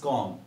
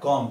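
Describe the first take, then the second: First: Com said softly, kom with no B; correct pronunciation. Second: Com said with the B sounded; wrong pronunciation. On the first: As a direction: drop the B in com. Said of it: "this is com". (comb में ब silent) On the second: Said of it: "This is not com". (comb में ब बोलना) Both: Shown as a demonstration.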